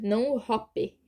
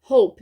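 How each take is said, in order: First: The word ends with a vowel after the p. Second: The word ends with no vowel after the p. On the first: The speaker calls it wrong. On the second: The speaker calls it right. "A gente fala hope"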